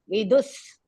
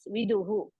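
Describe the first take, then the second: First: The word ends with an s sound. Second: The word ends with an h and echo vowel. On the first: This is the form used when chanting. "when we are chanting... that visarga has to be removed" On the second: This is the form used when reading. "while reading, yes, viduhu"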